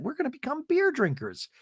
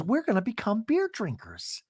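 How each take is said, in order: First: High squealy repeat; mock Angie excitement. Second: Said in the usual way. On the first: Angie marvelling to the group, high giddy voice. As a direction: pitch it up in giddy disbelief. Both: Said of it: "And Angie goes".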